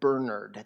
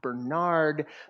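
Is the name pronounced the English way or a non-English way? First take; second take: English; non-English. First: The name is pronounced the English way. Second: The name is pronounced a non-English way. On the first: The speaker calls it right. "the English pronunciation" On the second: The speaker calls it wrong. "not Bernard"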